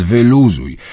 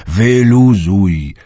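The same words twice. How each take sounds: First: Louder, slow drawn-out; almost shouting. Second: Very slow, drawn out, louder; almost shouting. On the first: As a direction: nearly yell at her to relax. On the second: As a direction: stretch "wyluzuj" into a loud plea. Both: Acted. Uncle nearly yells at fretting Dunia to relax. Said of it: "prawie wrzasnął".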